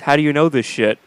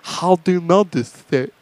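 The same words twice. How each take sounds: First: It is said in an ordinary speaking voice. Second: It is said in an imitated deaf speaker's voice. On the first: These are the words the character means to say. "she says" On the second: This is how the words actually come out. "because she's deaf, she comes out"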